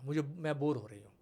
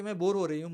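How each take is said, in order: First: Put-on breathy whisper of a bored kid; whispered complaint. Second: Said in the usual way. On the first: Mother imitating her bored daughter, whispering. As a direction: whisper it like a sulking child.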